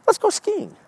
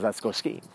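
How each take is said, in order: First: High-pitched squeaky slogan voice; high mock cheer. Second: Said in the usual way. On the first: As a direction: pipe it up high like an eager invitation. Voicing what Minnesota says.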